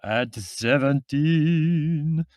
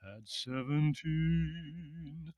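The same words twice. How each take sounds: First: Put-on loud, slow, high sung echo with a thick Middle European accent; sung, belt it out in a Middle European accent; sung, heavy Middle European intoning. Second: Soft, slow, high sung line in a British voice; sung, sigh it out in drawn-out song; sung, sighing British baritone. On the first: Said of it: "intoned the other singer in a rather heavy Middle European accent". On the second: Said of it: "sighed a very British baritone". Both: A narrator's reading.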